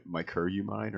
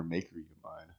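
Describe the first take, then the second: First: "Maker" said as MY-ker in "Maker you mine"; first syllable like "my". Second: "Maker" said as MAY-ker in "Maker you mine"; first syllable like "may". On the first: Asking the guest about his name, "Maker" pronounced MY-ker. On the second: Offering the guest a second option, "Maker" pronounced MAY-ker. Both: Shown as a demonstration. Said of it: "do I say".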